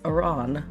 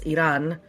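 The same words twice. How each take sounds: First: The R in the word is not rolled. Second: The R in the word is rolled. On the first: "if you don't roll the R, then it's Iran" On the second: "cause it's Iran"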